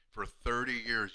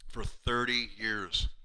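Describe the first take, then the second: First: "for thirty years" again slowly, lower; repeated with feeling. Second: "For thirty years" drawn out slowly, lower; slow emotional emphasis. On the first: Patient repeating his thanks to the doctor, slow and soft. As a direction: echo "for thirty years" softly, still moved. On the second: Patient telling his chiropractor how long, slow and moved. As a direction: linger on "thirty years" as if choked up. Patient's tearful thanks retold. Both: Retold or imitated.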